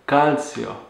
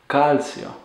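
No difference in how they are said.

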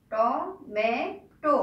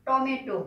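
First: tomato stretched very slowly, syllable by syllable; teacher drags out tomato for children writing it down, very slow; drawn-out dictation. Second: Said in the usual way. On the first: Shown as a demonstration. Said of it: "কি?". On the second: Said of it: "টয় ওকার টো।".

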